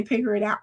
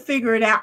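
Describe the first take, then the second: First: "Pigger" with a hard P in place of the F. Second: Said in the usual way. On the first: Retold or imitated. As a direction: say "Pigger it out" starting with a P sound. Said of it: "I did say". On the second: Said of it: "Instead of".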